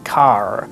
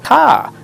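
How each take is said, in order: First: It is said in a general American accent. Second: It is said in a transatlantic accent. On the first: "not the American car" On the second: "So car"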